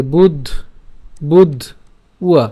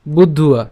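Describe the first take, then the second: First: "বুধ", pause, then "উয়া" as a separate piece; "বুধ… উয়া" sounded out in parts; split pronunciation. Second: "বুদ্ধুয়া" as one word, no break; joined pronunciation. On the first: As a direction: break the word after the closed "বুধ", then add "উয়া". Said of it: "So আমরা বুদ্ধ্বা উচ্চারণ করছি।". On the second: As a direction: run "বুদ্ধ" straight into "উয়া": "বুদ্ধুয়া". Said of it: "একসাথে উচ্চারণ করলে বুদ্ধুয়া". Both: Shown as a demonstration.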